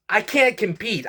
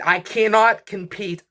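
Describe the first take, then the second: First: Exasperated, pitched up high; venting that he can't keep up; frustrated outburst. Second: "cannot" spelled out and leaned on; insist, spelling out "cannot"; emphatic repeat. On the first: Frustrated vlogger complaining to viewers, pitched-up exasperation. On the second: Repeating himself to viewers, leaning on "cannot". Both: Real, not acted. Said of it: "I'm just frustrated".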